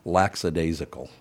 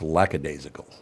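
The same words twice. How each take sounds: First: An extra s sound is inserted in the word. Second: The word is said without an extra s sound. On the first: The speaker calls it wrong. "they put an S in it for some damn reason" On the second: The speaker calls it right. "It's lackadaisical"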